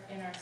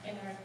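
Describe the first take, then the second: No difference in how they are said.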